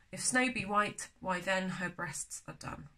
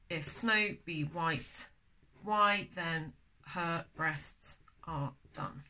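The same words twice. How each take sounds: First: Said in the usual way. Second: Very slow, measured word-by-word verse; slow scansion reading. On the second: Shown as a demonstration. Teacher working out the scansion of a poem, slow and deliberate. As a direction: space out each word to test the beat.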